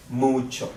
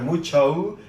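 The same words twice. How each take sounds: First: "mucho" ending on a short, pure Spanish o; correct Spanish vowels. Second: "mucho" with a drawn-out "oh-oo" glide at the end; wrong English-style ending. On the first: Teacher correcting learners, "mucho" with pure Spanish vowels. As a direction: say "mucho" as "MOO-cho", no glide on the o. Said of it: "it's not mucho, it's mucho". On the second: Teacher showing learners the mistake, "mucho" with an English gliding o. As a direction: say "mucho" as "moo-choh-oo", English final vowel. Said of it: "Remember, guys, it's not mucho". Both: Shown as a demonstration.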